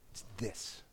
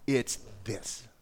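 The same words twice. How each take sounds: First: Hushed dramatic whisper; whispered repeat of the key line. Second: Said in the usual way. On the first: Acted. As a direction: lean in and breathe it.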